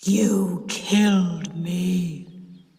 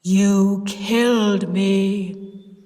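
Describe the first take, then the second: First: Very slow accusing ghost voice, stress on killed; slow, solemn ghost accusing the aunt; deep terrible voice. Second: Very slow grave accusation; slow, louder ghost accusing again; deep voice. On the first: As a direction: drag out "killed" like a vengeful ghost. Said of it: "in a deep, terrible voice". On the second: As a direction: stretch "killed" like a ghost. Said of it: "Cis said in the deep voice". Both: A narrator's reading.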